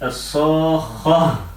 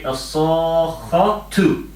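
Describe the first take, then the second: First: The word ends with an h sound. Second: The word ends with a t sound and vowel. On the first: The reciter stops on this word. "If you stop, then you say" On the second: The reciter carries on to the next word. "If you do not stop, if you carry on, you say"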